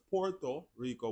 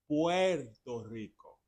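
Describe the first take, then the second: First: The first word is said like 'porto'. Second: The first word is said like 'pwerto'. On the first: The speaker calls it wrong. "It's not Puerto Rico because Puerto Rico would be P O R T O" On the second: The speaker calls it right. "But it is Puerto Rico"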